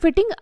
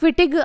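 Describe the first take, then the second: First: The name ends with a nasal 'ng' sound. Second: The name ends with a plain 'g' sound. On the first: The speaker calls it wrong. "ये फिटिंग अभिक्रिया नहीं है" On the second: The speaker calls it right. "यह है फिटिग अभिक्रिया"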